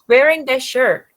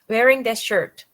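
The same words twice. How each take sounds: First: The final T of shirt is dropped. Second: The final T of shirt is clearly released. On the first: The speaker calls it right. "they mostly don't pronounce T sound" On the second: The speaker calls it wrong.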